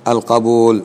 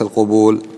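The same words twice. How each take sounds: First: The first vowel is an open 'a' sound. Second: The first vowel is a rounded 'u' sound. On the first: It means acceptance, the opposite of rejection. The speaker calls it right. "القبول وليس" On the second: It is a plural form with a different meaning. The speaker calls it wrong. "وليس القبول"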